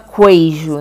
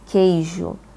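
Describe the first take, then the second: First: A 'u' sound is heard after the K. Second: No 'u' sound is heard after the K. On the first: The speaker calls it wrong. "você não fala queijo, né? Você não fala assim" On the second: The speaker calls it right. "A mesma coisa"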